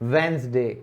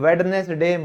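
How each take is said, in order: First: The d sound is not pronounced. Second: The d sound is clearly pronounced. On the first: The speaker calls it right. "डी हमारा silent होगा" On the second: The speaker calls it wrong. "कभी भी वेडनेसडे मत बोलना"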